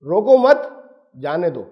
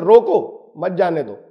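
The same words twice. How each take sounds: First: روکو مت joined and raised, pause, then جانے دو low; group روکو مت together, then a clear break; pause after مت. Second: روکو alone, pause, then مت جانے دو lower; pause after روکو. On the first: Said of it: "اب یہ دو طرح سے دو معنی اس کے نکال سکتے ہیں". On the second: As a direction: break after روکو, grouping مت جانے دو together. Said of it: "سننے والے دو طرح کے مطلب نکال سکتے ہیں". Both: Shown as a demonstration.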